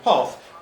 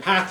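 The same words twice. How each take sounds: First: The vowel is a long a sound. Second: The vowel is a short a sound. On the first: "long A" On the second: "Short A"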